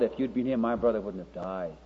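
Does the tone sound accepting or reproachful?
accepting. The tone is gentle and accepting. Whatever the listener decides is accepted. "she said it with an entirely different tone to Martha"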